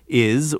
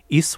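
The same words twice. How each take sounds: First: The word ends with a z sound. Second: The word ends with an s sound. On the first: "we have it quite frequently in words such as" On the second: "which they pronounce routinely as an S"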